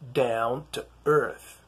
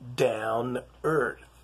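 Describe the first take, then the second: First: The T sound after 'down' is clearly pronounced. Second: The T sound after 'down' is dropped.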